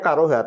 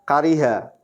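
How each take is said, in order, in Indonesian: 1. Vokal kedua adalah bunyi 'a'. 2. Vokal kedua adalah bunyi 'i'. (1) "tadi kirain saya karoha" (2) "ternyata kariha di kamus"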